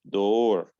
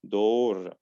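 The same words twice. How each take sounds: First: It is said with a British accent. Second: It is said with a British accent.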